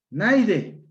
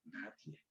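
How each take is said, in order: First: NAIDE as NAI-de, I before D, high and loud; metathesis pronunciation. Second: Said in the usual way. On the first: Shown as a demonstration. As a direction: punch "Naide" with the vowels swapped. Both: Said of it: "palabra con metatesis".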